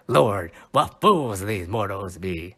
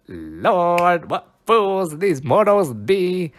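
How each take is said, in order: First: Said in the usual way. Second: Higher, louder and slow, every word savoured; grand declamation. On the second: Shown as a demonstration. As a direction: relish it like a stage Puck. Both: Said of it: "one of my favorite lines so far to say".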